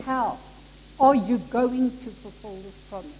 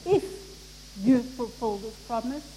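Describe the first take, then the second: First: "How" set apart, then a firm "are you going"; "How" as the believing word, then a firm question; stress on How. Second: "If" set apart by a pause before the rest; "If", held apart as the doubting word; stress on If. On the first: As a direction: pause after "How", then push on through the question. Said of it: "He said". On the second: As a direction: pause after "If" to show doubt. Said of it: "He didn't say". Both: Shown as a demonstration.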